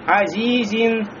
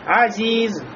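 First: The word ends with an -in sound. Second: The word ends without an -in sound. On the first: Reading continues past the word. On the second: The reader stops on the word.

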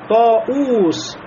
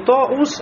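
First: The u vowel is held long. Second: The u vowel is short. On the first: The speaker calls it right. "То же самое" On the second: The speaker calls it wrong. "не «тоус»"

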